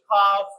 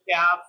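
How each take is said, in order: First: It is said with a British accent. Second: It is said with an American accent.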